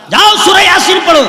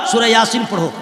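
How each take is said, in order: First: High, loud mock command; sudden acted shout; shouted order. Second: Said in the usual way. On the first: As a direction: yell it as a teacher sending a pupil off. Acted teacher ordering the boy off.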